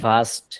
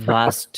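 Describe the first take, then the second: Both takes have the same delivery.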